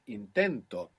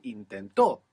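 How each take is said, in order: First: Intento stressed on the middle syllable, in-TEN-to; stress on penultimate syllable. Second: Intento stressed on the end, in-ten-TO; stress on last syllable. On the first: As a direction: hit TEN in Intento and let TO fall. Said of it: "the accent is just before it". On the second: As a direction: land hard on the final TO of intento. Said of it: "if I put the accent on the end". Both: Shown as a demonstration.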